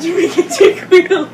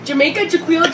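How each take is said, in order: First: Names said through a laugh; laughing at the silly names. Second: Said in the usual way. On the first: Shown as a demonstration. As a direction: giggle the names out. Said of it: "repeats the names, laughing". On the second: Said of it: "repeats the names, trying out".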